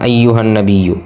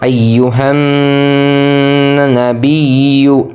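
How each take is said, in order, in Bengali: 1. n ধ্বনিটি ছোট, নাসিক্য গুঞ্জন ছাড়া। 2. n ধ্বনিটি নাসিক্য গুঞ্জনসহ টানা হয়। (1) "আমরা অনেকেই গুণ্য বলি না, আমরা বলি কি" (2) "এখানে কিন্তু গুণ্য হবে ... আসলে উচ্চারণ"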